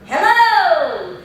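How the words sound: The voice has a round, open resonance.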